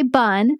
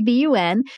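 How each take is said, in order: First: It is said as a single word. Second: It is said as three separate letters. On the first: The speaker calls it wrong. "you don't say bun" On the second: The speaker calls it right. "say BUN"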